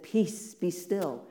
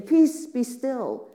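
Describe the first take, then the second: First: Offhand, no big show; casual dismissal. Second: Slow, loud and much higher grand command; big show. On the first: Jesus flicking fingers at the sea, casual offhand command. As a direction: flick it away, unbothered. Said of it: "as he said". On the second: Jesus imagined standing in the boat, grand slow loud command. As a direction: proclaim it like a showy miracle worker. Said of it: "like putting on a really big show". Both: Retold or imitated.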